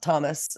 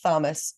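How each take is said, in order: First: The word starts with a plain T sound. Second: The word starts with a breathy TH sound. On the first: This is how other people say it. "and not Thomas" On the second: This is how the speaker's region says it. "we'd say like Thomas"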